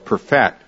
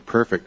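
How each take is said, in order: First: It is pronounced as the verb form. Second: It is pronounced as the adjective form. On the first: "We make it a verb" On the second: "I guess that's an adjective"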